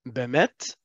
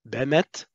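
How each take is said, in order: No difference in how they are said.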